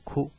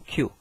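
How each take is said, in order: First: The word begins with a plain 'k' sound. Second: The word begins with a 'ky' sound. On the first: The speaker calls it wrong. "而不念哭，因为它会联想到了那个苦啊" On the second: The speaker calls it right. "九呢只能一般念Q"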